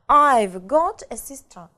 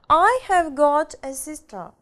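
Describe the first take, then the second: First: Have is shortened to a v sound, quickly. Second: The word have is said in full. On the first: "сокращенная форма... Все очень быстро" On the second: "Полная форма"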